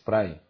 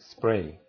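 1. Se añade una e antes de la s. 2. La palabra empieza directamente con el sonido s. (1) "Como si fuera ES" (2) "en lugar de spray"

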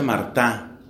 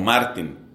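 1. El nombre termina en vocal, no en n. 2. El nombre termina con un sonido n claro. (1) "se pronuncia Martá" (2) "Se escribe Martín"

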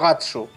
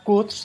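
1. El nombre termina con una vocal final añadida. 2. El nombre termina en el sonido s, sin vocal. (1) "por la pronunciación en japonés" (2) "la idea original era Guts de Agallas"

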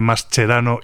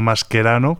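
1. El nombre se lee con los sonidos de la ortografía española. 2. El nombre se lee con los sonidos de la ortografía italiana. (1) "no pronunciarlos a la italiana, sino como se escriben" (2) "que es lo que cabría de esperar según la ortografía italiana"

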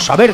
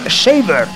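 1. El nombre se pronuncia con sonidos españoles. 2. El nombre se pronuncia con sonidos ingleses.

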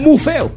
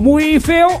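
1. La primera palabra se acorta a 'mu'. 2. La primera palabra se dice completa, terminando en 'y'. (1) "¿Muy o mu?" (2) "¿Muy o mu?"

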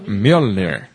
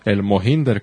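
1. El nombre suena como 'myol-nir'. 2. El nombre suena como 'mo-hin-der'. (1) "Pero se pronuncia Mjolnir" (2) "como dice Marmán"

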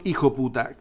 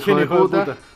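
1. La frase se contrae y se omite la palabra del medio. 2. La frase se dice en su variante coloquial vulgar. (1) "como la contracción" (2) "Tanto su vulgarismo"

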